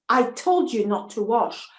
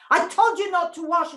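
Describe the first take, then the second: First: A touch of horror in a man's warning; horrified man. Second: Horrified outburst. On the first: Man scolding the girl, mildly horrified warning. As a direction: warn her, shocked she obeyed so little. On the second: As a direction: hit told hard, voice rising in horror. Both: Acted. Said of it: "he was horrified and said".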